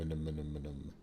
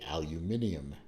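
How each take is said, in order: First: It has four syllables, ending in -num. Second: It has five syllables, ending in -nium. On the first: The speaker calls it right. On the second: The speaker calls it wrong.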